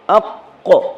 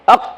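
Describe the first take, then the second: First: The final q ends with a short bouncing echo. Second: The final q stops flat with no echo. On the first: "شما میخوانین اقو اقو" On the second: "اق اگر میگفتین به جای خود میمان"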